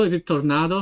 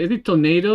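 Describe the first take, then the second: First: Tornado with an open Italian AH in the middle; Tornado with "nah". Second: Tornado with a long AY in the stressed middle syllable; Tornado with "nay". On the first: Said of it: "That's the Italian way". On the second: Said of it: "I don't know how to say it in English". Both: Shown as a demonstration.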